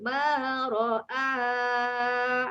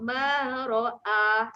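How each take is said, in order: First: The final vowel is held long, four to six counts. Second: The final vowel is held short, two counts. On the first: The reading continues on without stopping. "Kalau kita nak pakai tanda mat tu maksudnya sambung" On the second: The reading stops on this word. "kalau kita nak berhenti, waqaf ... Dia ambil dua harakat saja"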